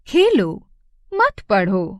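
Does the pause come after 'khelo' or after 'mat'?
after khelo. There is a pause right after the first word. The listener is told to play, not study. "पहले वाक्य में वो हमसे खेलने को कह रहा है"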